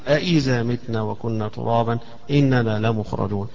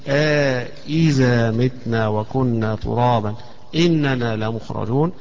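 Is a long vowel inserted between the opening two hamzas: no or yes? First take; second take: no; yes. First: The two opening hamzas are said without lengthening. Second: A long vowel separates the two opening hamzas. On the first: "ابن زكوان يقرأ بالتحقيق" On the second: "وهشام حيقرأ بالمد فيها"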